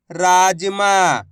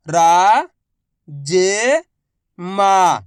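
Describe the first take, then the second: First: Said in the usual way. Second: Very slow, each syllable drawn out. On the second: Shown as a demonstration. Teacher sounding out a word for pupils, slow syllables. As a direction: spell the word out slowly for a child. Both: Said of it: "मैं किस तरीके से एक अक्षर का उच्चारण करके".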